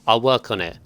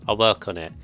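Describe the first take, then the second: Both takes have the same delivery.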